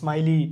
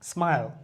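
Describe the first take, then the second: First: The word ends with an added vowel sound. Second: The word ends on the consonant, no final vowel. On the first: The speaker calls it wrong. "এরকম হয় না" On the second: The speaker calls it right. "ই আসে নাই"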